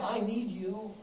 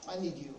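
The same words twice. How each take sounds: First: Said in the usual way. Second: A hushed, intimate echo of the plea; softer, lower. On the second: Shown as a demonstration. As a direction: repeat it much softer and lower. Preacher repeats plea, second softer.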